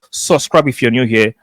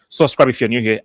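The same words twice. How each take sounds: First: It is said more slowly. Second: It is said at normal speed.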